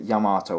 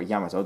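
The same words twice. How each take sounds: First: Yamato as 'ya-MAAH-toe', long middle vowel; English-American pronunciation. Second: Yamato as 'YAM-uh-toe', short vowels; Japanese-style pronunciation. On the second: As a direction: stress the first syllable of Yamato. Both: Shown as a demonstration. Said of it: "pronounce it Yamato or Yamato".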